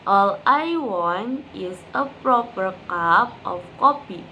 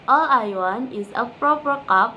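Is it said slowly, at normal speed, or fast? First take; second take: normal speed; fast. First: It is said at normal speed. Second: It is said fast.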